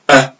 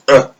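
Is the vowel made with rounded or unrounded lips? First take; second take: unrounded; rounded. First: The vowel is said with unrounded lips. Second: The vowel is said with rounded lips. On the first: The speaker calls it right. "The lips need to stay unrounded like this" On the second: The speaker calls it wrong. "we're not allowed to round our lips like this"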